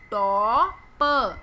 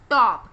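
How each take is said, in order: First: टॉप very slow, long "to" then separate "puh"; sounded out. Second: Said in the usual way. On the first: Shown as a demonstration. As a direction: stretch the vowel in टॉप and detach प. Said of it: "किस vowel की sound आ रही है". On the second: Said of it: "इसे English में क्या कहेंगे".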